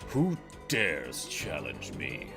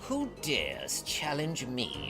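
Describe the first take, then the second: First: It is said in a bigger, intimidating voice. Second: It is said in an ordinary, smaller voice.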